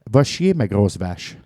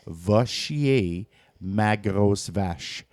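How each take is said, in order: First: The phrase is said at a normal speed. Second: The phrase is said a little more slowly.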